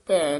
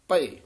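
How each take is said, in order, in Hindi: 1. शब्द एक एकल 'ai' स्वर पर खत्म होता है। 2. शब्द दो अक्षरों में खत्म होता है, 'a-ye'। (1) "ਭੈ ਨਹੀਂ ਬੋਲਣਾ" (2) "ਇਸ ਤਰ੍ਹਾਂ ਉਚਾਰਨ ਕਰਨਾ ਭਏ"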